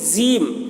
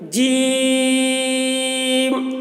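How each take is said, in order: First: The vowel is kept short. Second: The vowel is drawn out long. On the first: The speaker calls it wrong. "कुछ लोग इसको जीम बोलते हैं, ये बिल्कुल गलत है" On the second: The speaker calls it right. "देखिए इसको इतना खींचेंगे, ये इसका सही तलफ़ुज़ है।"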